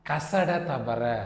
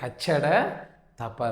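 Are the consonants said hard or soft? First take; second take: soft; hard. First: The consonants are soft and not doubled. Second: The consonants are hard and doubled. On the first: The speaker calls it wrong. "கசட தபர காஷா அதெல்லாம் தமிழ்ல கிடையவே கிடையாது" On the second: The speaker calls it right. "கச்சட தப்பற அப்படின்னு சொல்லணும்"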